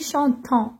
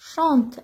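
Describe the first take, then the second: First: The ending is pronounced as a nasal vowel. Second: The ending is silent after the ch-ant sound. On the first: The speaker calls it wrong. "ماشي chantant" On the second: The speaker calls it right. "ننطقوها chante"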